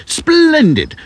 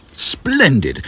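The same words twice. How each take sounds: First: Bubbly. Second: A first, lighter splendid; mildly bubbly. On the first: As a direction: burst with delight on splendid. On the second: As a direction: warm up to the excitement. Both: A narrator's reading. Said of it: "bubbled the professor".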